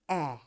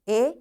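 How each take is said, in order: First: The vowel is given its short sound. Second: The vowel is given its long sound.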